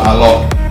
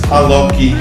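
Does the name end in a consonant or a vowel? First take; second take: consonant; vowel. First: The name ends on a bare consonant. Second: The name ends with an added weak vowel. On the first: "so it's not Alok" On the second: "putting a schwa on the end"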